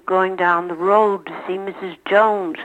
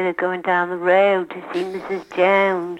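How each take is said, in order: First: Said in the usual way. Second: Philadelphia vowels, fronted O in road and Jones; demonstrating a Philadelphia accent. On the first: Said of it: "we grew up saying". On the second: Shown as a demonstration. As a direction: say it with exaggerated Philadelphia O sounds. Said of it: "But Philadelphia would say".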